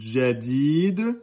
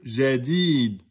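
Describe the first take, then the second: First: It begins with a 'dj' sound, a D first. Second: It begins with a soft French 'zh' sound. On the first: The speaker calls it right. "plus proche de Jadid" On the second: The speaker calls it wrong. "que Jadid"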